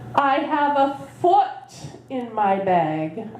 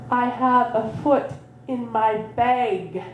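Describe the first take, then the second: First: It is said louder, with the stress on foot. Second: It is said plainly, with no special stress on foot.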